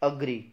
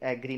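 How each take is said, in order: First: The first vowel sounds like "uh". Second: The first vowel sounds like "eh". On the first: The speaker calls it right. "इसको बोलते हैं अग्री। ए नहीं, अ" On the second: The speaker calls it wrong. "इसको एग्री नहीं"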